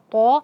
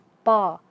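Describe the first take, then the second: First: The vowel is said with rounded lips. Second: The vowel is said thick without rounded lips. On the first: The speaker calls it wrong. "jangan dimonyongkan pada huruf-huruf yang tebal. Jangan dibaca to" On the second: The speaker calls it right. "tapi dibaca to"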